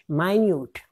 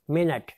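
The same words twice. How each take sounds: First: "minute" said my-NYOOT, stress on the second syllable; minute meaning tiny. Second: "minute" said MIN-it, stress on the first syllable, short i; minute as time. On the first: Teacher showing "minute" as my-NYOOT for tiny. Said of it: "very trivial, unimportant, we say minute". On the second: Teacher showing "minute" as MIN-it for time. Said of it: "means time, span time comprising sixty seconds". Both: Shown as a demonstration.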